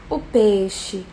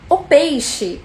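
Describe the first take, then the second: First: It is said in a sad, downcast tone. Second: It is said in a happy, cheerful tone. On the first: "um peixe triste" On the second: "um peixe alegre"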